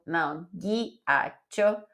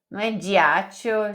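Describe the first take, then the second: First: Ghiaccio said ghia-tcho with a hard g, slowly; right Italian. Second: Diaccio said dji-a-tcho, g as dj; wrong reading. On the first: Teacher corrects to the Italian ghiaccio, slowly. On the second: Teacher shows the common misreading of ghiaccio. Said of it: "já vi gente lendo diaccio". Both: Shown as a demonstration.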